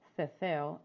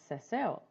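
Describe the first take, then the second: First: It is said the way in most of Spain. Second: It is said the way outside most of Spain.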